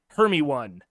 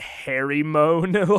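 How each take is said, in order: First: The name is said as 'Hermy one'. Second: The name is said as 'Harry Moan'. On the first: The speaker calls it right. "It's a Hermy one" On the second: The speaker calls it wrong. "I pronounced her name totally wrong for years in my brain"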